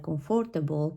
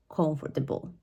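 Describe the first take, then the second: First: Comfortable with a full FOR in the middle, stressed; misplaced stress. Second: Comfortable stressed on the first syllable, middle reduced; correct stress. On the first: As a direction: say "comfortable" as com-FOR-ta-bul, like a learner. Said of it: "students are gonna pronounce it like". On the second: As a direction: say "comfortable" as COMF-ter-bul. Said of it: "this is pronounced as". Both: Shown as a demonstration.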